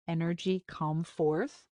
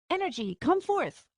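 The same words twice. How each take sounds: First: Lightly mocking echo, said flat; sarcastic repeat. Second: High, hammed-up magic incantation; mock grand command. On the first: Yarek mocking Arya's spell words, mild sarcasm. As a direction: throw her words back with mild sarcasm. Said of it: "I can hear the sarcasm in his voice". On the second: Arya showing her spell attempt, mock grand command. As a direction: call the spell out like a movie hero.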